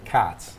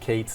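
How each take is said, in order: First: The vowel sounds like the one in 'cots'. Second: The vowel sounds like the one in 'gates'. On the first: Other families in the area say it this way. "some people say Cots" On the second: Some families in the area say it this way. "Some people say Kates"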